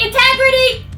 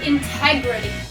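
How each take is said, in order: First: The word is said really loudly. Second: The word is said at normal volume. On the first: "This time say it really loud" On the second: "practice saying it with me"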